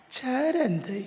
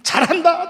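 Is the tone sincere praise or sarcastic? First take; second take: sarcastic; sincere. First: It is said in a mocking, sarcastic tone. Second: It is said as warm, sincere praise. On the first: The person is actually doing badly. "똑같은 단어인데 의미가 바뀌어져 버렸어요" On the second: The person is genuinely doing well. "의미 전달이 되잖아요"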